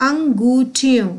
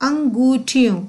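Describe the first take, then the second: The two takes are said the same way.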